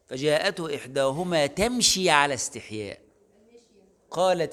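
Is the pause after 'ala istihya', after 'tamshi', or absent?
after istihya. A pause comes after 'ala istihya', before 'qalat'. The shyness belongs to her walking.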